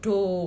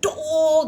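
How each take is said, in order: First: It sounds calm with a flat tone. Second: It sounds angry and sharp.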